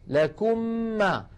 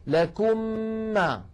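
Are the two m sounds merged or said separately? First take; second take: merged; merged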